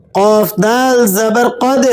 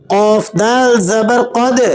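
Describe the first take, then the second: First: قد ending in a jolted, echoing د; bounced dal. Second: قد with a sharp jolt on the final د; bounced dal. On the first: Teacher repeating qalqala on قد for students. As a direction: release the د with a jerk. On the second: Teacher demonstrating qalqala on قد. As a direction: snap the د with a little echo. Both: Shown as a demonstration. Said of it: "دال پہ قلقلہ ادا کریں گے".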